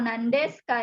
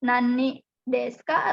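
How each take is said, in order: First: The first word is shortened to one syllable, nan. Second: The first word is said as two syllables, nani. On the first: The speaker calls it right. "dibacanya nan" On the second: The speaker calls it wrong. "bukan nani"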